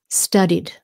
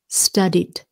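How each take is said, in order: No difference in how they are said.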